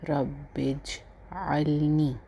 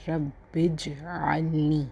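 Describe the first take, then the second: Both takes have the same delivery.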